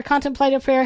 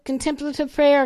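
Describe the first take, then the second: First: "contemplative" stressed on the first syllable, CON-tem-play-tive. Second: "contemplative" stressed on the second syllable, con-TEM-pla-tive. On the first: Speaker offering the other pronunciation, "contemplative" as CON-tem-play-tive. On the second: Speaker offering one of two pronunciations, "contemplative" stressed on TEM. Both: Shown as a demonstration. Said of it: "I've heard it both ways".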